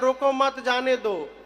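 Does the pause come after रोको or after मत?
after मत. The pause comes after मत.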